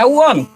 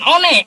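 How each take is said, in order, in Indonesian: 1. Diucapkan seperti kata bahasa Inggris 'won'. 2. Dibaca huruf demi huruf sesuai tulisannya. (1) "Orang Indonesia juga membaca won" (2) "bukan one"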